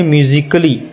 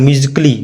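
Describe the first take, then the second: First: "म्यूजिकली" as myu-ji-kə-li; demonstrated pronunciation. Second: "म्यूजिकली" run together as myu-jik-li; rejected pronunciation. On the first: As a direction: put a brief अ after क in "म्यूजिकली". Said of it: "इसको क्या पढ़ेंगे". ("म्यूजिकली" में क के बाद हल्का अ) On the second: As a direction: drop the vowel after क in "म्यूजिकली", quickly. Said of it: "इसको नहीं बोलेंगे". ("म्यूजिकली" में क के बाद अ गिराकर) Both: Shown as a demonstration.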